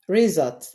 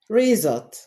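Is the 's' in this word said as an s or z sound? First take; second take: z; z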